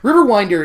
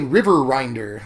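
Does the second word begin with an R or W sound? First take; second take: W sound; R sound. First: The second word begins with a clear W sound. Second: The second word begins with an R sound. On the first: The speaker calls it right. "I have to really enunciate that W" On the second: The speaker calls it wrong. "I always want to say River Rinder"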